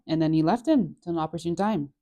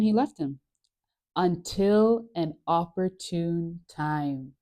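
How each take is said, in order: First: Said in the usual way. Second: Slowed right down for suspense; dramatic slow reading. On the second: Shown as a demonstration. Reading Luke aloud to viewers, slow dramatic suspense. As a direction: draw out the line like a cliffhanger. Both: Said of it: "Dun, dun, dun".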